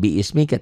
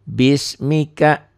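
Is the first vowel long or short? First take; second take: long; short. First: The first vowel is drawn out long. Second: The first vowel is short. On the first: The speaker calls it wrong. "dibacanya bukan biismika" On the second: The speaker calls it right. "Tapi bismika"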